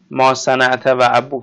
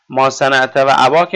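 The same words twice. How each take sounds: First: ابوک said slowly with a clear u before the k; case ending ابوک. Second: اباک said with a long a before the k; case ending اباک. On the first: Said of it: "نگاه اینجا ابوک". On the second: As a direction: land on the a in اباک. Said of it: "اینجا اباک". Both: Shown as a demonstration.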